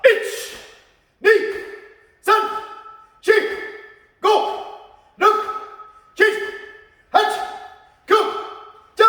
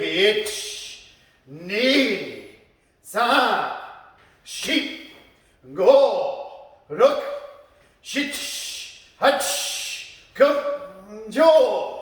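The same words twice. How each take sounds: First: Sharp, high, short martial arts count; power count. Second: Slow, drawn-out martial arts count. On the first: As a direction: call each number as an explosive high burst. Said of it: "spin pa". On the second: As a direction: count each strike slowly, with pauses between. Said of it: "slowly punching". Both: Shown as a demonstration.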